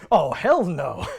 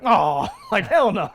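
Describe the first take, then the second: First: Mock stuffy British narrator line; lightly imitating an old British narrator. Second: Louder laughing mock Emerson; imitating Emerson. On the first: Retelling the show narrator's line, mild British imitation. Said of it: "the narrator goes". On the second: Retelling Emerson's line, laughing mock imitation. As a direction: quote it with a laugh. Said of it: "he says it the same way".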